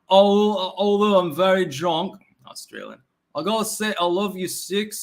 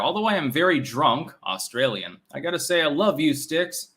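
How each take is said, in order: First: It is read in a put-on, British-sounding accent. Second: It is read in his ordinary natural accent.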